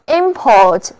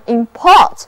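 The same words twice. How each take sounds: First: Import as IM-port, the IM stressed; first-syllable stress. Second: Import as im-PORT, the PORT stressed; second-syllable stress. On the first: Teacher demonstrating the noun, import stressed on IM. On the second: Teacher demonstrating the verb, import stressed on PORT. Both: Shown as a demonstration. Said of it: "遵循那个名前动后的读音规律".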